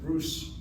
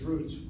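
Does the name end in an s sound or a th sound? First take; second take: s sound; th sound. First: The name ends with an s sound. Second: The name ends with a th sound. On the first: "they pronounce it as an S sound" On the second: This is the way everybody says it. "Everybody says root"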